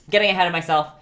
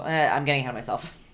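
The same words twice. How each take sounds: First: Laughing at herself. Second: Said in the usual way. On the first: Real, not acted. Painter catching herself mid-lesson, laughing louder. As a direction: repeat it louder through a laugh.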